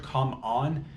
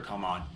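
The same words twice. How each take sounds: First: "Come on" with "on" lifting at the end; rising challenge. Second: "Come on" dropped low and softer, falling on "on"; falling dismissal. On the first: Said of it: "heard "Come on". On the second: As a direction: say "Come on" low and soft, as a mere protest. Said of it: "I heard "Come on". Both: Retold or imitated.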